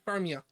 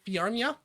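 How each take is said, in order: First: The name begins with a plain 'far' sound. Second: The name begins with a 'fyar' sound. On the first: "I also ignore the first J" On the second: "I don't say Fiarmia"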